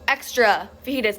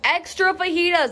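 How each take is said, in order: First: It is said loudly and meanly. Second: It is said even louder, nearly shouted.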